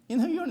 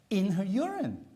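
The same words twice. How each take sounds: First: Much higher and louder "In her urine", near a cry of disbelief; a shocked, louder, much higher echo of "In her urine"; astonished repeat. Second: "In her urine" said louder and higher, weight falling on "urine"; louder, higher "In her urine" with a falling stress on "urine"; emphatic. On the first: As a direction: hit "urine" even higher, amazed. Repeating the shocking finding, stronger. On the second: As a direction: land hard on "urine". Stressing the shocking finding. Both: Real, not acted.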